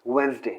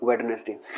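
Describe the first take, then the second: First: The middle d sound is left silent. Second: The middle d sound is clearly pronounced. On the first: The speaker calls it right. "This is pronounced as वेंसडे" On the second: The speaker calls it wrong. "Not वेडनेसडे"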